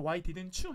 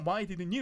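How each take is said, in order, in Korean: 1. t는 you와 합쳐져서 ch 소리가 돼요. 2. t는 빠지고 단어들이 자연스럽게 이어져요. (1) "you하고 t가 부딪혀서" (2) "이거 빼고 그냥 why didn't you 이렇게 흘려도 돼요"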